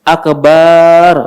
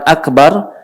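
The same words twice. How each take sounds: First: The second syllable is drawn out long. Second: The second syllable is kept short. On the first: It can mean a drum. The speaker calls it wrong. "ba-nya dipanjangkan" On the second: It means the greatest. The speaker calls it right. "bukan akbar"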